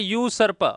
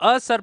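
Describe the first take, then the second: First: The word begins with a 'you' sound. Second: The word begins with a short 'uh' vowel. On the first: The speaker calls it right. "इसको बोला जाता है यू सर्प" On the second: The speaker calls it wrong. "इसको असर पर बोलने वाले गलत हो जाएंगे"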